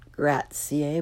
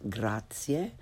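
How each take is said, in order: First: "grazie" slowly, with English short a; learner's mispronunciation. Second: "grazie" slow and soft, open ah; correct Italian pronunciation. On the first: Teacher shows beginners' mistake, "grazie" with English short a. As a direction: say "grazie" starting like English grat. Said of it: "first the way most people". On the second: Teacher corrects beginners, "grazie" with Italian ah. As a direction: say "grazie" as GRAH-tsyeh. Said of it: "follow it with the correct pronunciation". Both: Shown as a demonstration.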